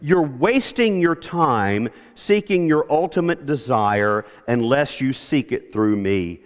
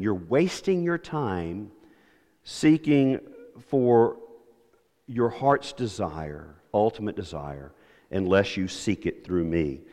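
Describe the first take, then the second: First: "wasting" stressed, slow and firm; emphatic. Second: Slow and softer, pausing between words; slow soft repeat. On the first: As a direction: lean on the word "wasting". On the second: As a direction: let each phrase sink in gently. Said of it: "Jesus is saying". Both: Shown as a demonstration.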